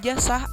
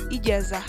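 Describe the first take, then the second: First: The middle consonant is s. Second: The middle consonant is z. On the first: The speaker calls it wrong. "diucapkan j atau s" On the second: The speaker calls it right. "semestinya ijazah"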